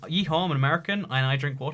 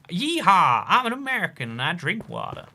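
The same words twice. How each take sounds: First: It is read in the speaker's normal accent. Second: It is said in a put-on American accent.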